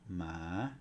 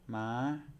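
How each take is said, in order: First: The pitch climbs from low to high. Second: The pitch is held high throughout. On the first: "Here we have rising tone" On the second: "then we have high tone"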